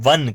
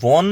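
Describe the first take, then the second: First: The vowel is open and unrounded, like in 'hut'. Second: The vowel is rounded, like in 'hot'. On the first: The speaker calls it right. "આને વન કહીશું" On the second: The speaker calls it wrong. "વોન નહીં કહીએ આપણે"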